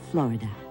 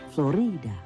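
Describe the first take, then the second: First: The stress is not on the middle syllable. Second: The stress is on the middle syllable. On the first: This is the adapted English pronunciation used today. "the English adapted the word to its present pronunciation" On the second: This is the original Spanish pronunciation. "The Spanish pronounced the name with the emphasis on the middle syllable"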